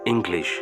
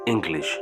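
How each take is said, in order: First: A g sound is heard after the ng. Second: A g sound is heard after the ng.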